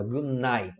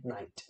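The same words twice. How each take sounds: First: "good night" with the T of "night" dropped; pronunciation demo. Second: "Night" said with a hard final T; wrong take. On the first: Teacher showing students "good night" without the T. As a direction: say "good night" letting the final T fade. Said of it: "como é que a gente fala". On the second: Teacher showing students the wrong T ending. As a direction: spit out the T at the end of "Night". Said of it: "Não precisa falar o night com T". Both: Shown as a demonstration.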